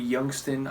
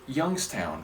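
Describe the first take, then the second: First: The last syllable is reduced to 'ston'. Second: The last syllable is a full 'town'. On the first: "Youngston would be more of like a British pronunciation" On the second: "I'm guessing Youngstown"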